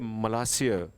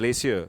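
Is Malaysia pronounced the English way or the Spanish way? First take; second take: Spanish; English. First: It is said with a Spanish pronunciation. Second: It is said with an English pronunciation. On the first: "so that's Spanish. ... so they say" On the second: "they don't say"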